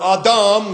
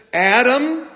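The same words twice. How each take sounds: First: Adam said as ah-DAHM with open a's; Adam with broad ah vowels, ah-dahm; Hebrew-style Adam. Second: Adam said as AD-um; plain English Adam. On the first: Pastor giving the original pronunciation of Adam as ah-dahm. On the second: Pastor saying Adam the usual English way, AD-um. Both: Shown as a demonstration. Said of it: "or Adam".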